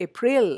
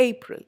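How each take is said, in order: First: "April" as a-PRIL, second syllable drawn out; wrong second-syllable stress. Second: "April" as A-pril, short unstressed ending; stress on first syllable. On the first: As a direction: throw the weight onto "pril" in "April". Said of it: "I don't say April". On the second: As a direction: lean on the A of "April". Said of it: "stress to the first syllable". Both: Shown as a demonstration.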